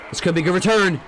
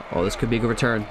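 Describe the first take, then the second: First: Rising excitement. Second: Said in the usual way. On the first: Real, not acted. Return building, said again louder.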